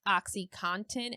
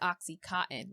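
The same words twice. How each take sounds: First: The ending does not sound like cotton. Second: The ending sounds like the word cotton. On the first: The speaker calls it right. "literally saying it OxyContin and seeing it spelled out" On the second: The speaker calls it wrong. "I always thought it was OxyContin, like a cotton swab"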